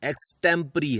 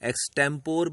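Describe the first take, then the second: First: The word ends in a 'puh-ree' sound. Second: The word ends in a short 'por' sound. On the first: The speaker calls it right. "इस शब्द का सही उच्चारण एक्सटेम्परी है" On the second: The speaker calls it wrong. "कुछ लोग इसे एक्सटेम्पोर भी बोलते हैं"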